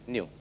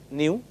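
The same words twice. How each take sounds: First: The vowel is one smooth 'you' sound. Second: The vowel is split into separate 'ee' and 'oo'. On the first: The speaker calls it right. "but new" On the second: The speaker calls it wrong. "Not new"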